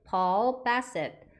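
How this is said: The name is said with English-style pronunciation. "영어식 발음으로는 이렇게 하시면 됩니다"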